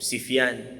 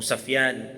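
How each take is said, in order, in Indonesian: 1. Suku kata pertama memiliki vokal i. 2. Suku kata pertama memiliki vokal a.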